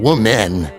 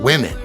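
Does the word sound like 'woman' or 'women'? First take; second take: woman; women. First: The plural sounds like the singular 'woman'. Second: The plural sounds distinct from the singular. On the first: The speaker calls it wrong. "I like I'm saying woman" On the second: The speaker calls it right. "that does sound better"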